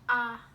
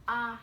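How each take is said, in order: First: The vowel is said with the mouth wide open. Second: The vowel is said with the mouth wide open.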